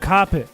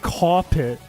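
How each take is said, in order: First: It is said in a Boston accent. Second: It is said in a New York accent. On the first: "If you're Boston, you go carpet" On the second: "That would be like New York"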